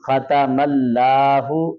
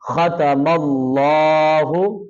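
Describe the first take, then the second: First: The l sound is light and thin. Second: The l sound is heavy and full. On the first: The speaker calls it wrong. "खतमल्लाहु नहीं पढ़ना, ये गलत है" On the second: The speaker calls it right. "लफ्ज़ अल्लाह को मोटा करके पढ़ना है"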